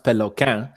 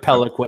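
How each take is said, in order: First: The name is said with a French pronunciation. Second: The name is said with an English pronunciation. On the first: It is the original family pronunciation. "French Canadians pronounced Peloquin" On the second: It is the simpler everyday version. "I just go with with Peliquin. It's so much easier"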